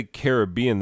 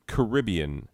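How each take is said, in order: First: "Caribbean" stressed on the third syllable; "Caribbean" with the stress on BEE; disapproved pronunciation. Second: "Caribbean" stressed on the second syllable; "Caribbean" with the stress on RIB; preferred pronunciation. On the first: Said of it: "they don't even let you on the boat". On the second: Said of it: "you enjoy being wrong about pronunciations". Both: Shown as a demonstration.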